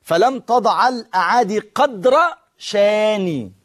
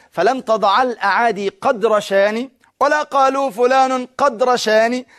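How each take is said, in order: First: Slow reading with a break after "قدر"; pausing after قدر. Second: Slow flowing reading, "قد" linked straight to "رشاني"; run together as قد رشاني. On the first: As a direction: stop dead after "قدر" before "شاني". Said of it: "لو أنا حبيت أنطقها بالوقف". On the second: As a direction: join "قدر شاني" into "قد رشاني" without a stop. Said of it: "فكان يقول إيه". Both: Shown as a demonstration.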